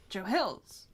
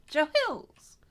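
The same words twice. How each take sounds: First: Said in the usual way. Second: High, loud show-opener shout; announcer's name call. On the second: Shown as a demonstration. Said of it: "I was proud of the Joe Hills".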